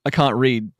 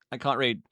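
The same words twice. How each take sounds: First: Said in the usual way. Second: Half to self, under the breath; softer aside. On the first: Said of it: "reads chat comment twice". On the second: Shown as a demonstration. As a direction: softly repeat I can't read. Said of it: "second take much softer".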